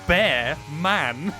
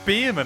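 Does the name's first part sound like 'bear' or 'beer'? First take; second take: bear; beer. First: The first syllable sounds like 'bear'. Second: The first syllable sounds like 'beer'. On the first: The speaker calls it right. "It's literally spelt bear man" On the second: The speaker calls it wrong. "is that not how you pronounce it? I went, no"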